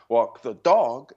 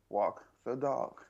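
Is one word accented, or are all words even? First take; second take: accented; even. First: One word carries a strong accent. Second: All three words are said evenly. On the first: The speaker calls it wrong. "and it's not walk the dog" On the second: The speaker calls it right. "Not an accent on it. It's just walk the dog"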